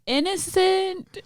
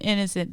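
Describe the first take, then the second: First: Innocent sung out much higher and slow; drawn-out innocent. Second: Said in the usual way. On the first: Shown as a demonstration. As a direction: stretch out the word Innocent with a high, lingering delight. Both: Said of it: "Innocent, innocent, innocent".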